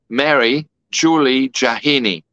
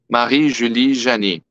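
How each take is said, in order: First: The name is said with an English accent. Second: The name is said with a French accent.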